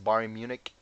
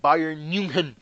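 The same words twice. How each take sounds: First: It is said in a plain American accent. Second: It is said in an imitated German accent.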